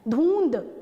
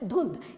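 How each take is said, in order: First: The vowel is a long u. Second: The vowel is a short u. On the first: The speaker calls it wrong. "जहाँ पे छोटे ऊ की मात्रा हमें लगानी थी वहाँ हमने बड़े ऊ की लगा दी" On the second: The speaker calls it right. "हमें जो ध्वनि आ रही है वो छोटे ऊ की आ रही है"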